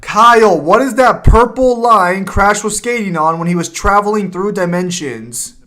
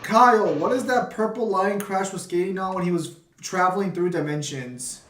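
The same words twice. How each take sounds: First: Loud, slowing on the last words; calling out so the friend hears. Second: Muffled, as if through a hand. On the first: Repeating the question after muffled complaint. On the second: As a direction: voice dulled behind a covered mic. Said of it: "like you're muffled". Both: Real, not acted.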